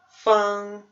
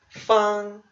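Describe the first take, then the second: First: It is said with the first tone. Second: The same.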